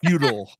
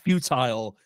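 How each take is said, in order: First: It is pronounced the American way. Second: It is pronounced the British way. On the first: The speaker calls it right. "The American version" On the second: The speaker calls it wrong. "not futile"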